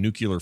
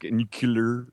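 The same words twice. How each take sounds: First: Nuclear said nook-yuh-ler, like George Bush; nuclear with an extra syllable, nook-yuh-ler. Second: Nuclear said clearly as new-clee-er; nuclear in two crisp parts, new-clear; correct nuclear. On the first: Real, not acted. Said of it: "did I say nuclear wrong?". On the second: Shown as a demonstration. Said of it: "I was about to say".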